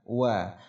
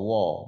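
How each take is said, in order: First: The vowel after w sounds like a. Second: The vowel after w sounds like o. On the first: The speaker calls it right. "Yang betul adalah wa" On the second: The speaker calls it wrong. "seolah-olah ada huruf waw yang barisnya o"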